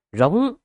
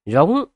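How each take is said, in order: First: A strangled roar forced high from the throat. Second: A raised, bellowing roar of hatred; resentful roar. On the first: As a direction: choke out a furious howl. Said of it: "chỉ có thể rít gào từ cổ họng". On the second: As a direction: roar it out with bitter rage. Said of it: "phát ra tiếng rống uất hận". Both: Acted.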